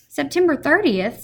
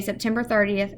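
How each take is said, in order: First: High, louder sudden excitement; excited. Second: Said in the usual way. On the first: A narrator's reading. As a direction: realise the date with a jolt. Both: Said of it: "said Mister Popper in an excited tone".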